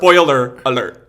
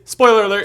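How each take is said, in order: First: The two words are clearly separated and enunciated. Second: The two words are run quickly together. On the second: "it is spoiler alert ... we're not enunciating there"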